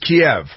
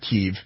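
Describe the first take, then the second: First: The name is said the usual English way. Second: The name is said the local Ukrainian way. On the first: The speaker calls it right. "It's Kiev. We all speak English here" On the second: The speaker calls it wrong. "It's not Kiev"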